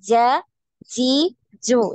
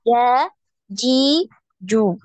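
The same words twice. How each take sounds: First: The j sound has an audible hiss. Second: The j sound has no hiss at all. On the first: The speaker calls it wrong. "Ini ada desisnya" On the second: The speaker calls it right. "nggak ada desis"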